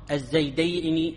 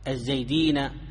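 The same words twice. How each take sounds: First: The final n is followed by an 'i' vowel. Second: The final n is followed by an 'a' vowel. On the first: It names two people called Zayd. "ونون المثنى مكسورة" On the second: It names more than two people called Zayd. "فنون جمع المذكر السالم مفتوحة"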